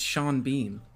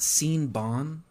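First: The vowels of the two name parts are normal. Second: The vowels of the two name parts are swapped.

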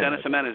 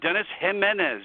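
First: The name is said very quickly, run together. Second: The name is said at a normal pace.

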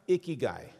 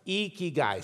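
First: The word is said without lifted, smiling cheeks. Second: The word is said with lifted, smiling cheeks. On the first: The speaker calls it wrong. "It's not pronounced ikigai" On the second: The speaker calls it right. "You lift your cheeks like you're smiling"

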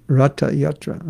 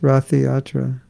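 First: The word is said with a Sanskrit pronunciation. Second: The word is said with an English accent. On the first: The speaker calls it right. "It's Rathiyatra" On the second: The speaker calls it wrong. "It's not pronounced Rathiyatra"

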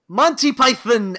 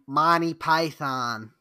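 First: The name is said with a British-sounding accent. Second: The name is said with a plain American accent. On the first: The speaker calls it wrong. "You're speaking American English. You don't need to say it like that" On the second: The speaker calls it right. "That's a lot better"

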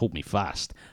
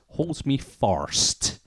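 First: The last word is a clear, plain 'fast'. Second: The last word sounds distorted, like 'first' or 'fart'. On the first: This is the word as officially written. "The lyric sheet officially says" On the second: This is how the singer actually sounds. "What [name] says is"

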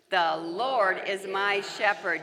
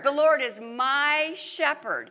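First: The word my carries no special stress. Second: The stress falls on the word my.

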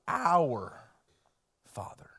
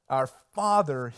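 First: The stress falls on the word our. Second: The stress falls on the word Father.

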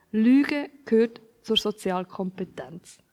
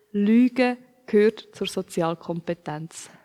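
No difference in how they are said.

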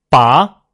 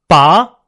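First: The pitch rises from mid to high. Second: The same.

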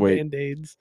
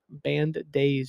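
First: The d links over, sounding like band aids. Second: The second word starts with a separate d. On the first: It sounds like the band members had a disease. The speaker calls it wrong. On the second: It refers to the days of being in a band. The speaker calls it right.

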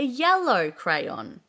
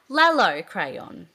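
First: The first word begins with a Y sound. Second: The first word begins with an L sound. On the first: An adult is modelling it. The speaker calls it right. "you would go, that's a yellow crayon" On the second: A young child is saying it. The speaker calls it wrong. "if a child was to go, Lello crayon"

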